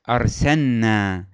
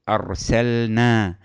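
First: The L slides into the N sound. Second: The L is pronounced clearly before the N. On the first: The speaker calls it wrong. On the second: The speaker calls it right.

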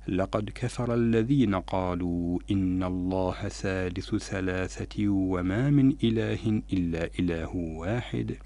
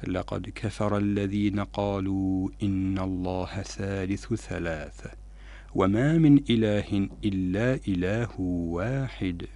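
First: There is no pause after ثلاثة. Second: There is a pause after ثلاثة. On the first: The whole sentence seems to be the same speakers' claim. The speaker calls it wrong. "فلو أوصلنا وقلنا" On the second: The claim ends at ثلاثة and the rest is God's reply. The speaker calls it right. "فهنا كان الوقف لازم على كلمة ثلاثة"

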